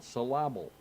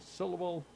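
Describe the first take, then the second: First: Syllable with the accent moved to the middle, sy-LA-ble; stress on wrong syllable. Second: Said in the usual way. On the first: Shown as a demonstration. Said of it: "on the wrong syllable". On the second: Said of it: "have the accent on the right syllable".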